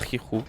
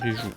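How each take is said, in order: First: The middle consonant is a breathy h sound. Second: The middle consonant is a soft zh sound. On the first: The speaker calls it wrong. "moi j'ai l'habitude de dire Rihu parce que pour moi c'est comme ça vient du désert" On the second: The speaker calls it right. "C'est bel et bien juste euh, Riju"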